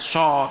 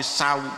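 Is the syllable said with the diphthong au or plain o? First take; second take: o; au. First: The syllable has a single plain o vowel. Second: The syllable glides from a to u. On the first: The speaker calls it wrong. "tidak so" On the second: The speaker calls it right. "tapi sau ya"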